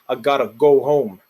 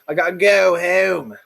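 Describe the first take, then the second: First: The long O is plain and unfronted. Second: The long O is strongly fronted.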